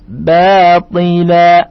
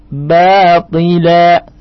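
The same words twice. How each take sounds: The two takes are said the same way.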